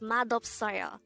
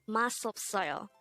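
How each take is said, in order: First: The first syllable ends with a d sound. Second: The first syllable ends with an s sound. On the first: The speaker calls it right. "it is pronounced as madopsoyo" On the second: The speaker calls it wrong. "It's not masopsoyo"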